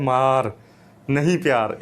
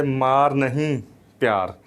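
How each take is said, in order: First: "मार" alone, pause, then "नहीं प्यार" run together; pause after मार. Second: "मार नहीं" as one group, pause, then "प्यार"; pause after नहीं. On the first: Teacher shows the school slogan meaning beat, pausing after "मार". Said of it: "अब मैंने जो पढ़ा है". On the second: Teacher shows the slogan spoken another way, pausing after "नहीं". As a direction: join "मार नहीं", set "प्यार" apart. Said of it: "अगर इसको इस तरह बोला जाए". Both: Shown as a demonstration.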